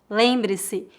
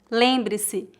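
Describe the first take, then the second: No difference in how they are said.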